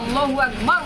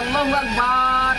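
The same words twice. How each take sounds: First: The vowels are said at their normal length. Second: A vowel is drawn out longer than normal. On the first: God is the greatest. The speaker calls it right. "মানে ঠিক হলো" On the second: Many gods are the greatest. The speaker calls it wrong. "মানে পাল্টে গেল"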